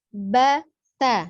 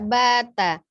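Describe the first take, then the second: First: The two syllables are split by a break. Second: The two syllables run together without a break. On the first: The speaker calls it right. "dipisah saja" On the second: The speaker calls it wrong. "tidak bata"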